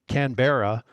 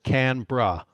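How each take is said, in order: First: It is pronounced as the spelling suggests. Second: It is pronounced the local Australian way. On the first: "if you read it, ... you would say it" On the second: "the Australians pronounce it"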